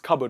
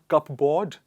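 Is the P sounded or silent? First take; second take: silent; sounded. First: The P is not pronounced. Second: The P is pronounced. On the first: The speaker calls it right. "It is cupboard" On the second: The speaker calls it wrong. "Not cupboard"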